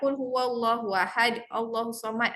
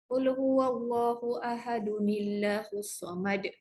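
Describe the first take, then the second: First: Ahad ends on d, with no joining n. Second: Ahad becomes ahadun, joined straight into Allah. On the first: The speaker calls it wrong. "dia tak boleh baca macam tu" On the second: The speaker calls it right. "Ini adalah nun al-wiqayah bila dia bersambung"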